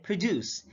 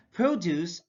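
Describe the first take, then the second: First: ProDUCE, second syllable stressed; careful demo of proDUCE. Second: PROduce, long PRO; careful demo of PROduce; stress on first syllable. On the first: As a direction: hit the DUCE in "produce". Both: Shown as a demonstration. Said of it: "stress is the verbal emphasis used".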